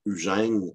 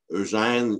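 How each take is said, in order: First: "Eugène" said as "Ugène"; old bel usage pronunciation. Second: Said in the usual way. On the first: Shown as a demonstration. Lecturer explaining bel usage, "Eugène" as "Ugène". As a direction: start "Eugène" on a French u sound. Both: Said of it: "qui pouvait se prononcer Eugène".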